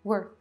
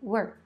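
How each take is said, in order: Both takes have the same delivery.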